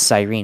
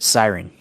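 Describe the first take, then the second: First: The second syllable sounds like 'reen'. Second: The second syllable sounds like 'ren'. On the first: This is the unfamiliar pronunciation used on the broadcast. "I've never heard the word pronounced Cyrene" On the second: This is the familiar everyday pronunciation. "I've just heard siren"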